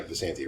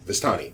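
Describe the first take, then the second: First: "Visanti" said with "san-tee" at the end; doubtful mispronunciation. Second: "Vistani" said softly as "vis-TAH-nee"; tentative correction. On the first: Game master checking the name with players, mispronounced. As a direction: say "Visanti" softly, n before the t. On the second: Game master checking the name with players, corrected pronunciation. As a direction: offer "Vistani" with the t before the n. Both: Real, not acted. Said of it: "is that how it's pronounced".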